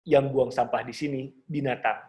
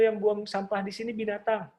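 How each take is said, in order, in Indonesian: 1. Suaranya rendah dan berat. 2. Suaranya tinggi dan tipis. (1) "suara yang rendah dan optimal" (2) "Atau gampangnya bukan gini"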